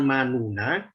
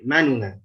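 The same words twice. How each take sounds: First: The vowel after the first n is fully voiced. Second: The vowel after the first n is quickly shortened. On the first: The speaker calls it wrong. "bukan manuna" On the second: The speaker calls it right. "tapi manuna"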